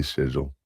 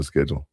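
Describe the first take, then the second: First: "schedule" opening with a soft sh; British pronunciation. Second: Said in the usual way. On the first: Shown as a demonstration. Another example from England, British sh in "schedule". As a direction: say "schedule" as SHED-yool. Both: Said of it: "Just like they say schedule".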